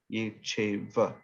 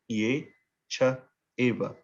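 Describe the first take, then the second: First: The words run together without pauses. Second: The words are separated by short pauses.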